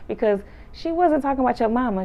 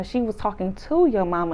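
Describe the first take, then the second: First: High emphasis landing on "about"; stress on "about". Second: "to" stretched and punched; stress on "to". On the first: Host explaining the mix-up, stress on "about". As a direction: push "about" to contrast it. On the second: Host explaining the mix-up, stress on "to". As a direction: hit "to" to correct them. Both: Real, not acted. Teller repeats correction, contrasting about/to.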